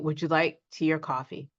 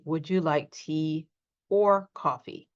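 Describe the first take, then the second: First: The words run together with reduced forms. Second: Each word is said fully and separately. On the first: It is normal conversation. "Normal conversation, we say" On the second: The speaker is emphasizing. "I did not say, ... We usually don't say that unless we're emphasizing"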